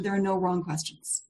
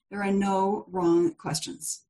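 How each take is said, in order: First: Said in the usual way. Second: "no wrong questions" said slowly, word by word; slow, measured reassurance on "no wrong questions"; slow deliberate repetition. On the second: Real, not acted. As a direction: repeat it at half speed, letting "no" and "wrong" land. Repeats it slowly for emphasis.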